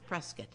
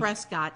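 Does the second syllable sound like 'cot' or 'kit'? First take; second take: kit; cot. First: The second syllable sounds like 'kit'. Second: The second syllable sounds like 'cot'. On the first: The speaker calls it right. "It's Prescott" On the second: The speaker calls it wrong. "Don't say Prescott"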